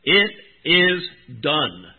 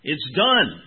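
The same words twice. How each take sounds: First: "It is done" slow, every word weighted and loud; emphasized. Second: "It's done" said loud and final; God's voice. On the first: Retold or imitated. Preacher echoing Scott's reading, slow and emphatic. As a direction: lean hard on "It is done", slowly. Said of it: "the way that Scott emphasized that". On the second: Acted. Preacher voicing God from the temple, firm. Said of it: "That voice is God's voice".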